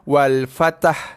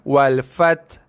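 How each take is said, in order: First: The t and h merge into an added vowel. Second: The word stops at the t with no h. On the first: "tu cantum sekali" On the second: "Ha tak bunyi langsung"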